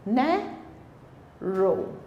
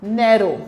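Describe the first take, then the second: First: narrow split in two, long pause before रो; syllable by syllable. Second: Said in the usual way. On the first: Shown as a demonstration. Teacher showing the O sound, narrow split slowly into नै and रो. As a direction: say narrow slowly and softer, नै, then रो apart. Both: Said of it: "ओ की voice आ रही है".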